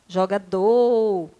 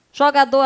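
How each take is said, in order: First: "Jogador" with a long drawn-out final "dor"; stress on last syllable. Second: Said in the usual way. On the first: Shown as a demonstration. Teacher showing pupils the tonic syllable, "Jogador" stressed and drawn out at the end. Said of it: "a última sílaba é a sílaba tônica". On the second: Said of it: "Não, não é".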